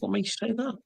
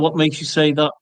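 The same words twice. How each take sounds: First: The question sounds low, soft and gentle. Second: The question sounds sharp and confrontational. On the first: The asker is simply curious about the objection. The speaker calls it right. "in the tone of voice that's down there" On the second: The objection is being challenged. The speaker calls it wrong. "and not"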